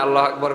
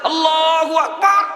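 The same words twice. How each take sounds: First: It is said in a soft, gentle voice. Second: It is said in a harsh, rough voice.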